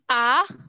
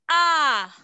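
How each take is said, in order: First: The pitch rises across the vowel. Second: The pitch falls across the vowel. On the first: "Et le ton sept, qui est le ton montant" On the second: "Le ton cinq, qui est le ton descendant"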